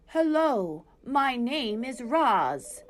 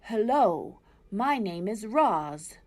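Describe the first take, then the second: First: Slow, even robot voice; robot speaking to animals for the first time; robot greeting. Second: Slow, mildly robotic greeting; owl imitating Roz. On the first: A narrator's reading. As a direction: introduce yourself slowly, evenly. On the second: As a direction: owl lightly mimicking the robot. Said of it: "I think it was saying".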